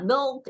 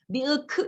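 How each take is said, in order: First: It is said as one short syllable. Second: It is said as two separate syllables. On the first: The word is learned as a whole sound chunk. "아이는 그냥 milk 이렇게 익히지" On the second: The word is learned from its spelling. "밀크 이게 밀크구나 이렇게 익히지 않는다"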